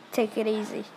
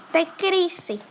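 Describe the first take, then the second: First: Said in the usual way. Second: Higher, louder mock repeat of the phrase; mocking echo. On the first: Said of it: "Okay, well, lie down". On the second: Echoing the mom's advice back, higher and mocking. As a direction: parrot it back with a teasing lift.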